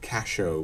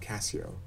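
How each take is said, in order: First: The middle consonant is a 'sh' sound. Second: The middle consonant is an 's' sound. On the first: This is how the name was pronounced in Shakespeare's time. "casho was the way it was pronounced" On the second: This is how the name is pronounced today. "not Cassio"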